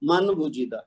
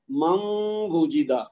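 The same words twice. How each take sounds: First: من وجدہ with a separate noon; غلط تلفظ; wrong pronunciation demo. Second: من وجدہ with the noon merged into waw and a nasal hum; صحیح ادغام; correct merged recitation. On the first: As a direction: read من وجدہ the wrong way, noon kept clear. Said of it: "یہ غلط ہے". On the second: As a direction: read من وجدہ right, with ghunna. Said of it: "ادغام کرنا ہے غنہ کے ساتھ". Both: Shown as a demonstration.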